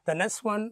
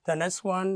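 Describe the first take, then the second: No difference in how they are said.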